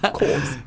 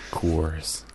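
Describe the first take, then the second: First: It is said in a British accent. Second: It is said in an American accent.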